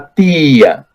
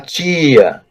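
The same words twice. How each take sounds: First: The t is a plain, dry stop. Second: The t is softened toward a ch sound.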